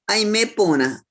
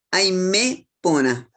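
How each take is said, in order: First: Said in the usual way. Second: Slow "aimepona", broken after a stressed "me"; "aimepona" drawn out with weight on "me". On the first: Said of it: "otra palabra en el mismo texto". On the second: Shown as a demonstration. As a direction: lean on the E of "aimepona", then pause.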